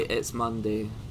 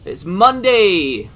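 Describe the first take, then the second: First: It is said in a flat, glum tone. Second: It is said in an enthusiastic, excited tone.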